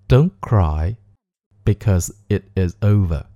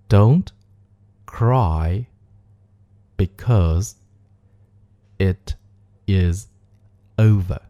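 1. 这个句子是以正常速度说的。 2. 这个句子是慢速说的。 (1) "我们来带爆破音常速的念一遍。" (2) "我们来慢速练习一下这个句子。"

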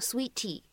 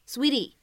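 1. 中间的t是清晰的送气t。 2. 中间的t是快速轻柔的闪音。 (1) "字母T 它呢不用发一个特别清晰送气的一个T，你不需要在美式发音当中呢读成sweetie" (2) "我们在美式发音当中呢会读一个闪音的处理"

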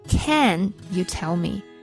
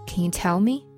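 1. 单词 can 是重读的。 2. 单词 can 是不重读的。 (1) "而不是Can you tell me？" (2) "这都不对。"

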